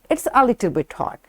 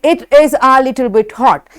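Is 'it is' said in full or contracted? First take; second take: contracted; full. First: 'It is' is squeezed into a quick 'it's'. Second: Both words of 'it is' are said in full. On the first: "when we say it in weak way, weak form" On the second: "This is strong way"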